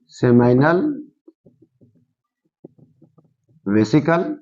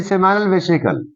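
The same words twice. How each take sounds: First: seminal and vesicle far apart, each rising; seminal, long pause, vesicle, for note-takers; slow dictation. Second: Said in the usual way. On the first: Shown as a demonstration. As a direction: dictate seminal vesicle one word at a time. Teacher dictates term with long pauses.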